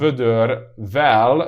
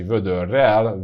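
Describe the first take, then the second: First: The suffix begins with a v sound. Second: The suffix begins with an r sound. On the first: The speaker calls it wrong. "which we don't say" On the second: The speaker calls it right. "the V, assimilates to an R"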